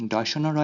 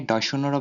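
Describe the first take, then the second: No difference in how they are said.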